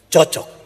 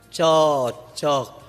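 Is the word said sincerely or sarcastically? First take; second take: sincerely; sarcastically. First: It is said sincerely, as real approval. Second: It is said sarcastically, mocking the couple.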